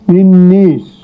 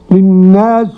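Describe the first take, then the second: First: The long vowel leans toward an e sound. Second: The long vowel is an open a sound. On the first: "بالإمالة للنيس" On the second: "والباقون بالفتح"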